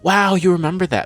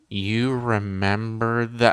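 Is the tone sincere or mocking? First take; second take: sincere; mocking. First: It sounds sincere and impressed. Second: It sounds mocking and sarcastic.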